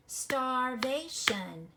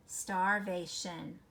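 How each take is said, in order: First: "Starvation" stretched very slow, beat by beat; clapped out syllables. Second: Said in the usual way. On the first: Shown as a demonstration. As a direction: clap every syllable of "Starvation". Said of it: "Let's clap it out". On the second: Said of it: "How many syllables?".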